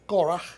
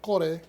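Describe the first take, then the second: First: The name is said with a Hebrew pronunciation. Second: The name is said with a Spanish pronunciation. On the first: This is the original form of the name. "la pronunciación en hebreo es Korah" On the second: This is the translated form of the name. "el nombre Core, como se traduce en español"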